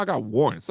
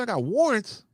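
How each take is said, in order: First: Said in the usual way. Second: Incredulous. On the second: Retold or imitated. Retold disbelief at cop's claim.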